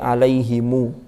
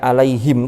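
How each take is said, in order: First: The word ends with an added u vowel. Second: The word ends on a bare m sound. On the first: The speaker calls it right. "tapi alaihimu" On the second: The speaker calls it wrong. "Tidak alaihim, tidak disukun"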